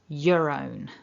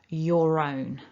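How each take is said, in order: First: 'Your' is reduced to a weak schwa vowel. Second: An R sound links 'your' into 'own'. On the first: "with that schwa" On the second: "I need to activate it because I've got another vowel immediately afterwards"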